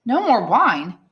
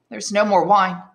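First: Higher, louder, alarmed echo; exclaimed disbelief. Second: Said in the usual way. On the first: Acted. Son shocked that father has no wine, alarmed exclamation. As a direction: exclaim it with a swooping stress on MORE. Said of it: "exclaimed Edmund, turning pale".

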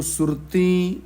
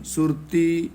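First: ਸੁਰਤੀ with a nasalised final ee; wrong nasal ending. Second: ਸੁਰਤੀ with an oral final ee; no nasal ending. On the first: Teacher shows what not to say, ਸੁਰਤੀ ending nasal. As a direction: nasalise the last vowel of ਸੁਰਤੀ. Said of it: "ਇਹਨੂੰ ਸੁਰਤੀ ਨਹੀਂ ਕਹਿਣਾ". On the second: Teacher corrects the reading, ਸੁਰਤੀ without nasal ending. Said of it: "ਬਿੰਦੀ ਨਹੀਂ ਲਾਉਣੀ". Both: Shown as a demonstration.

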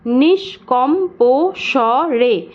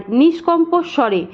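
First: "নিষ্কম্প স্বরে" very slowly as নিষ্-কম্-পো-স্ব-রে; five separate drawn-out beats on "নিষ্কম্প স্বরে"; split into syllables. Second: Said in the usual way. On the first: Shown as a demonstration. Teacher dividing the word for students, "নিষ্কম্প স্বরে" one syllable per breath beat. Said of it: "এক ঝোঁকে কতটুকু করে উচ্চারণ করতে পারছি". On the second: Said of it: "এখানেও আমরা এক ঝোঁকে কতটুকু".

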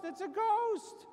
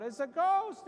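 First: Much higher, slower, drawn-out scream of terror; panicked shriek. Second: A loud frightened cry, higher up; terrified yell. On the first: Disciples seeing a figure on the water, high drawn-out shriek. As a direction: stretch it into a high frightened wail. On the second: Disciples in the storm crying out in fright, loud yell. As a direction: yell it out in panic at a figure on the water. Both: Retold or imitated. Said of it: "and they yelled out".

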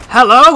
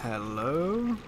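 First: Startled hello. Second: Quiet hello. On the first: Startled call after a noise. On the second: Calm call into new room. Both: Real, not acted.

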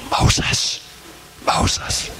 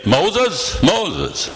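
First: Hushed, voiceless whisper of the name; God's whisper. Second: Voiced, higher call of the name; God calling out. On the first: Acted. God calling Moses in the still desert, whispered. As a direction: whisper it twice, gently spaced. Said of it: "did God say". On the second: God calling Moses by name, raised voiced call. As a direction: call it twice, each falling away. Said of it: "Or did he say".

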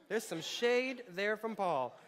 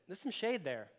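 First: Laughing. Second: Said in the usual way. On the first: Real, not acted. Repeats aside, laughing.

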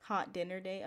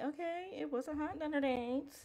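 First: Said in the usual way. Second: Teasing, higher-pitched approval; playful approval. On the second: Real, not acted. Player reacting to the hot dinner date buff, playful approval. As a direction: lift it high, teasing and impressed.

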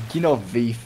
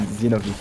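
First: "Guinovif" starting with a G sound; own former pronunciation. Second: "Zinoviev" starting with a Z sound; Russian-based pronunciation. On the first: Showing players the old Brazilian way, "Guinovif" with a G. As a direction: say "Guinovif" with a G at the front. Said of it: "I was used to call it". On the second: Giving the name as heard from Russians, "Zinoviev" with a Z. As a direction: say "Zinoviev" with a Z at the front. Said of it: "the Russian pronunciation". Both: Shown as a demonstration.

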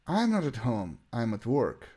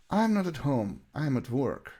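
Both takes have the same delivery.

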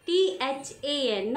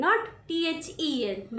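First: Spelling than as T-H-A-N. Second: Spelling then as T-H-E-N, not to use; wrong spelling. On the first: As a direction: spell टीएचएएन slowly letter by letter. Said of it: "बस ये याद रखो". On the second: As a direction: spell टीएचईएन slowly as the wrong form. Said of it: "टीएचएएन". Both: Shown as a demonstration.

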